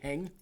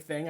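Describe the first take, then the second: First: The word begins with an h sound. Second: The word begins with a th sound. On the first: "I say hing" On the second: "sometimes I say thing"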